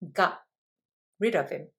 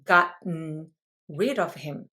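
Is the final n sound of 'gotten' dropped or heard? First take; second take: dropped; heard. First: The n is dropped after a glottal stop. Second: The n at the end of gotten is heard. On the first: "음도 안 하면 이렇게 돼요" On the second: "원래 발음은 이겁니다"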